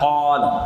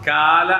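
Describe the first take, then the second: First: The first consonant is a deeper throat sound. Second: The first consonant is a plain front k. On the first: The speaker calls it right. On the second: The speaker calls it wrong. "കാല അല്ല"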